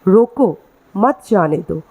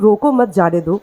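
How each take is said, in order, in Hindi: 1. पहले शब्द के बाद एक विराम है। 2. बिना रुके सीधा पढ़ा जाता है। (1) "अगर मैं रोको के बाद अल्प विराम डाल दूँ" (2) "अगर मैं इसे वाक्य में पढ़ रही हूँ"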